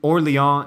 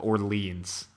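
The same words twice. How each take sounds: First: The name is said with French pronunciation. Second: The name is said with English pronunciation.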